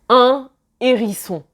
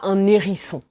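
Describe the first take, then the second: First: The n is not linked to the next word. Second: The n is linked into the next word. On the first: The speaker calls it right. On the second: The speaker calls it wrong.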